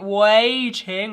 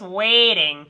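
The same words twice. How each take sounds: First: The first vowel is wide and open. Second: The first vowel is narrow, close to E. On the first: "with a big open space way" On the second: "like E"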